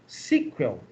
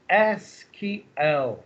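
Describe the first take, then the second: First: It is said as one word, like sequel. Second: Each letter is said separately, one by one. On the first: The speaker calls it wrong. "comumente pronunciada" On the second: The speaker calls it right. "letra a letra"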